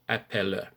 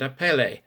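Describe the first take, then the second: First: The word ends in a rounded Ö sound. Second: The word ends in an open E sound. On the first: The speaker calls it right. "these endings must be an Ö sound" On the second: The speaker calls it wrong. "you might want to say rebelle and appelle"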